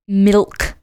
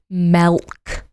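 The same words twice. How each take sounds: First: The vowel is a short 'ih' sound. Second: The vowel is an 'eh' sound, like 'melk'. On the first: The speaker calls it right. "It's spelt with an I, not an E. It's milk" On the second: The speaker calls it wrong. "not milk"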